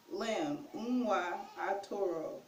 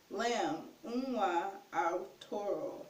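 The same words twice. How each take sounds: The two takes are said the same way.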